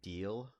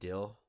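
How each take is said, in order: First: The vowel is long, like in deal. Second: The vowel is short, like in dill. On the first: "instead of saying deal" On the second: "I'll say dill"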